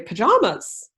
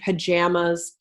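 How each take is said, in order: First: It is said with a non-Canadian pronunciation. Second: It is said with a Canadian pronunciation. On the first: This is how other people say it. "but people would say pajamas" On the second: This is how the speaker says it. "I said cilantro and, and pajamas ... my Canadian accent showed through"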